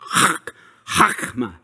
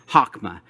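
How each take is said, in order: First: The first sound is raspy, with strong throat friction. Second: The first sound is soft, with little throat friction.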